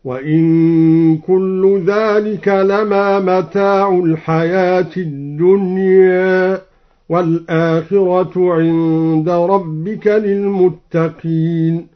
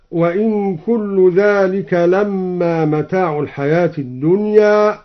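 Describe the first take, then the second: First: Slow tartil, لما said "lamaa" with a single m; lightened meem. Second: Said in the usual way. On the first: Shown as a demonstration. Teacher demonstrating al-Duri's reading, لما chanted as light "lamaa". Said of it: "قرأ الدوري بتخفيف الميم". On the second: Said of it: "وقوله تعالى".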